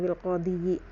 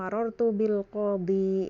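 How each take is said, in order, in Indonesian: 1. Kata ini berakhir dengan vokal kasrah tambahan. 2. Kata ini berakhir dengan i panjang biasa. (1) "jadi bukan bil qadhi" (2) "dhammah dan kasrohnya ... tidak dilafazkan"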